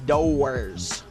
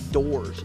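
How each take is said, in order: First: The word is drawn out to rhyme with horrors. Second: The word is said in its ordinary short form. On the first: The speaker calls it right. "you say doors. So it sounds like it. It's called stretching it" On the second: The speaker calls it wrong. "you don't say doors"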